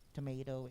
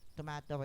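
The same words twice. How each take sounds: First: The word is said in an American accent. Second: The word is said in a European accent. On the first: "is American accent" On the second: "is European"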